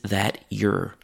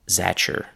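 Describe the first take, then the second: First: The vowel in "your" is weakened. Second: The t and y merge into a ch sound. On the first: It is slightly less formal. "A slightly less formal pronunciation of this" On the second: It is the most informal form. "The next form is the most chewing gum like"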